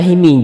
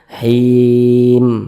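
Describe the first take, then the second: First: The word ends with an added i vowel. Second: The word ends on a clipped m sound. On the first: The speaker calls it wrong. "jangan dibaca himi kalau berhenti di huruf mim" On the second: The speaker calls it right. "Kalau him jangan dibaca himi"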